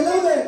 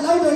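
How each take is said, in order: First: A higher, louder repeat of louder. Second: Put-on calling out louder to the kids; urging the kids to speak up. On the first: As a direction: push the word louder up and out. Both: Shown as a demonstration.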